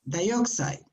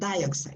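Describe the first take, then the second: First: The stress is on the second syllable. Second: The stress is on the first syllable. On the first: The speaker calls it right. "It's dioxide. The stress was on the second one" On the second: The speaker calls it wrong. "I was pronouncing wrong. It was not dioxide"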